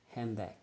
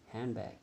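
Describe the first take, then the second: Both takes have the same delivery.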